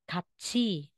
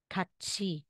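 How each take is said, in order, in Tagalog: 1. Ang katinig ay tunog ch. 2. Ang katinig ay tunog ch.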